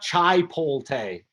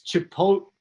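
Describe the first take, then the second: First: The L sound comes before the T sound. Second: The T sound comes before the L sound. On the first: The speaker calls it wrong. "It's not chai polte" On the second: The speaker calls it right. "It's chipotle"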